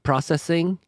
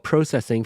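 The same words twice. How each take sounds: First: The word is said without a Canadian accent. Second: The word is said with a Canadian accent.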